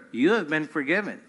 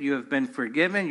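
First: "have" stressed, falling after it. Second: "forgiven" carries the weight, "have" stays light; stress on FORGIVEN. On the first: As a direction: lean on "have", let "been forgiven" drop. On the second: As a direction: land the beat on "forgiven". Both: Shown as a demonstration.

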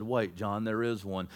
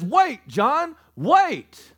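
First: Very low, soft and steady; quiet reassurance. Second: Raised, higher-pitched plea to wait; urgent halting call. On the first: Elder in the heavenly realm calming the apostle, hushed. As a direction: settle him gently, deep in pitch. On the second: Elder stopping the weeping apostle, urgent. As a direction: stop him with a high, firm call. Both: Retold or imitated.

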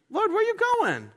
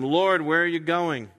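First: High, squeaky mock of Peter's question; a much higher, squeaky replay of the plain question; mock whiny Peter. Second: Said in the usual way. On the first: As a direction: ham up Peter's confused whine. Peter's question redone mockingly.

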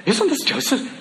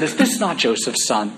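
First: High, delighted take on Isn't this Joseph?; thrilled local recognising him; excited. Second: Said in the usual way. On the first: Shown as a demonstration. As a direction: say it beaming, with a laugh. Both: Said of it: "that's how they're saying it".

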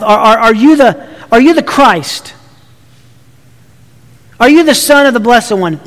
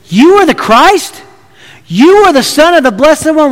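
First: "Are you the Christ?" asked as a plain question. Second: "You are the Christ?" said as a statement, raised, with a rise at the end; statement as question. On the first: Preacher quoting the English text as a question, plain. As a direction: read "Are you the Son of the Blessed One?" as an ordinary question with a falling end. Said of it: "It's not a question in the Greek text". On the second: Caiaphas stating the claim with an implied question, pitch raised. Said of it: "a statement with an implied question mark". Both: Shown as a demonstration.

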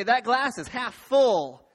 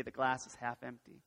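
First: Loud, slow and rousing; big, drawn-out optimist's question; upbeat half full. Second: Low, soft and deflated; downbeat half empty. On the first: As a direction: belt it out to rally the room. Polls the room for optimists. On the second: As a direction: let it sink down low. Polls the room for pessimists. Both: Shown as a demonstration.

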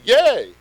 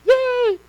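First: Said in the usual way. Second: High, mock-excited cheer; cheering yay. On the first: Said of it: "Y E A". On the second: Shown as a demonstration. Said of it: "I mean, not like yay".

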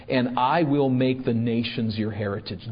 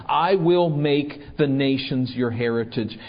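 First: Said in the usual way. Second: "I will make the nations your heritage" restated firmly, each phrase weighted; emphatic repetition. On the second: Acted. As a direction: drive home "I will make" with firm emphasis. Repeats verse after naming raging nations.

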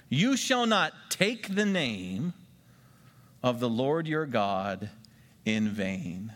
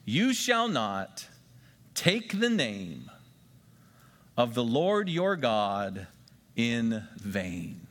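First: Slow, spaced-out recitation; deliberate memory-verse repeat; slow repeated dictation. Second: Slow, deliberate dictation pace; measured memory-verse reading. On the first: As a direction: say it again slowly for note-takers. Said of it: "Write that down". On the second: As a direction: read it slowly so they can write. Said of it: "let's write something down to help us remember". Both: Shown as a demonstration.

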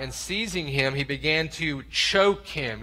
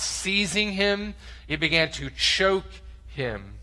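First: Said in the usual way. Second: "Seizing" drawn out high and slow, "choke" hit hard; slow, menacing stress on "Seizing" and "choke"; violent emphasis. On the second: Shown as a demonstration. Preacher makes the crowd hear the violence, slow and menacing. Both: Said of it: "You hear the violence?".

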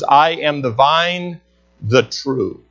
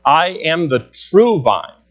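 First: "I am the vine" then a pause and a falling "the true"; emphasis on the true. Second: "true" stressed with a fall, said slowly; usual English wording. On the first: Preacher demonstrating Greek word order to the church, stressing "the true". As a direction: set "the true" apart after a pause. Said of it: "It's an emphasis". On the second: Preacher giving the English rendering to the church, slow stress on "true". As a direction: say "I am the true vine", leaning on "true". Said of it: "not that it's wrong the way that it's written". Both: Shown as a demonstration.

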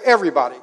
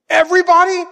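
First: Said in the usual way. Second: "Everybody?" squeaked much higher and louder with a rising end; the daughter in disbelief; shocked child. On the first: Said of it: "And I said". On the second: Retold or imitated. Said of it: "She goes".

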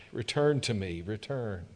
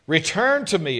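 First: Gentle plea. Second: Loud, ringing plea; a booming summons to return; proclaimed. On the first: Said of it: "God's call, repeated gently". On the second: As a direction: call it out across the room. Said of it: "God's call, proclaimed". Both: Acted.

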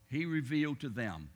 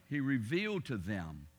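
Both takes have the same delivery.

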